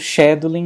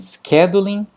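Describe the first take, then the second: First: British accent, starting with a 'sh' sound. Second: American accent, starting with a 'sk' sound. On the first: "na pronúncia britânica ou australiana" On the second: "na pronúncia americana"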